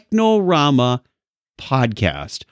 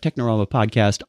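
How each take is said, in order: First: It is said slowly. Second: It is said fast.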